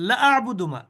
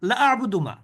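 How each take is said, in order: The two takes are said the same way.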